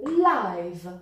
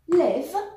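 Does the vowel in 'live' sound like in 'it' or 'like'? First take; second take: like; it. First: The vowel is a diphthong, as in 'like'. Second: The vowel is short, as in 'it'. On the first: It describes something happening right now. "as in like" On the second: It is the verb meaning to be alive or reside. "with a short e, as in it"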